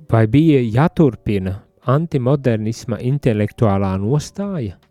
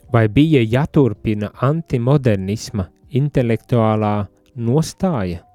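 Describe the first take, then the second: No difference in how they are said.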